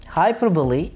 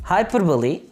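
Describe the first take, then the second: The two takes are said the same way.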